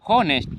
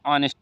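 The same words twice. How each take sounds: First: हॉनेस्ट said with a sounded h at the start, as it is spelt; हॉनेस्ट read letter by letter, with a clear h; spelling pronunciation. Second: ऑनेस्ट with a silent h, starting on the open vowel; ऑनेस्ट, drop the h and open straight on the vowel; correct pronunciation. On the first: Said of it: "जिसे इसे लिखा है एच O N S T". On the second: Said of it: "but पढ़ा जाएगा ऑनेस्ट". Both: Shown as a demonstration.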